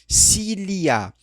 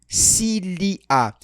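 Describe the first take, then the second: No difference in how they are said.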